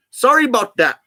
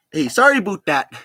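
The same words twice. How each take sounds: First: High, raised Canadian-style apology; Canadian "sorry" with a wide "about"; attempted British accent slipping into Canadian; mock Canadian accent. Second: Put-on "about" said as "aboot" in a Canadian accent; mock Canadian, higher, with a tight "aboot". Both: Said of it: "Sounds Canadian".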